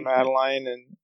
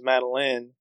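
First: The last syllable does not sound like 'Lynn'. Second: The last syllable sounds like 'Lynn'. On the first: "I say Madeline" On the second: "she just wants to have every one of her daughters named Lynn"

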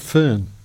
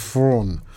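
First: The vowel sounds like the 'er' in fern. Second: The vowel sounds like the 'aw' in fawn. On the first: The speaker calls it wrong. "I've been pronouncing it Fern" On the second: The speaker calls it right. "It's something akin to Fawn"

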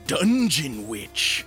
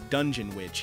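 First: The name is said in a playful put-on accent. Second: The name is said in a plain, clear voice. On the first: "I say that with a fun accent every time" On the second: "if you couldn't understand me"

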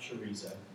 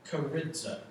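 First: The word is pronounced like the Spanish sausage. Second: The word is pronounced the Greek way. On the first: The speaker calls it wrong. "not chorizo" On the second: The speaker calls it right. "it's pronounced in the Greek chorizo"

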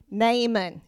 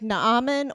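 First: The name is said in an Appalachian style. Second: The name is said in a Hawaiian-like style. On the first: "or Appalachian" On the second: "like Hawaiian"

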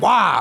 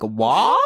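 First: It is said in an angry way. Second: It is said as a question.

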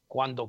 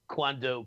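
First: The word is said in a native-like Italian way. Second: The word is said with an American English accent. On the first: The speaker calls it right. "It's quando" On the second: The speaker calls it wrong. "Your Caucasian accent. ... And you say quando"

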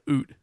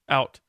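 First: It is said with an exaggerated Canadian vowel. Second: It is said with an American vowel.

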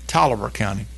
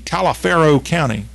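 First: The name is said as three syllables, 'Tolliver'. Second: The name is said with every spelled syllable. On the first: The speaker calls it right. "it's Tolliver County. Almost like Bolivar, but with a T" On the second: The speaker calls it wrong. "You'd think it would be Taliaferro County"

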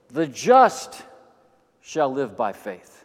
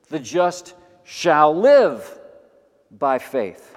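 First: The word 'just' carries the main stress. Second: The main stress falls away from 'just'.

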